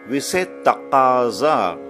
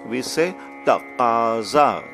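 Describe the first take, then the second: Both takes have the same delivery.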